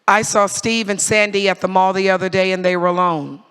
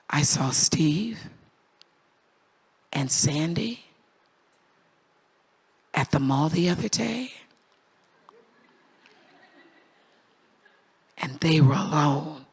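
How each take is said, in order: First: It is said in a plain, matter-of-fact tone. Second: It is said in a suggestive, insinuating tone. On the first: Nothing notable happened. "This is case number one" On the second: Something improper was going on. "Same words, but different tone"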